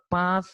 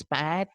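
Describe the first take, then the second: First: "path" said PAHTH, long ah; British pronunciation. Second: "path" said PATH, vowel as in cat; American pronunciation. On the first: Teacher contrasting varieties, British "path" with ah. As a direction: open "path" out to ah. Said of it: "here a sound is there". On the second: Teacher contrasting varieties, American "path" with ae. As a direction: stretch the ae in "path". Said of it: "the a sound is pr". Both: Shown as a demonstration.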